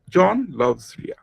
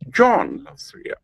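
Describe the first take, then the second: First: Every word is stressed equally. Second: The stress falls on the first word. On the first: "the Bengali speaker will give emphasis on all the syllables of the sentence" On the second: "If you put the stress or accent on the first syllable"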